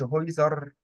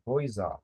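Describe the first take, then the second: First: "هويزر" with the final r fully sounded; wrong pronunciation demo. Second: "هويزا" with the final r softened into a light a; correct pronunciation demo. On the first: Tutor showing the pupil the wrong way, r pronounced. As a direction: say "هويزر" with a clear r at the end, as the mistake. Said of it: "ما بقولش هويزر". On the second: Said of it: "بنطقه بس بدوس عليه". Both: Shown as a demonstration.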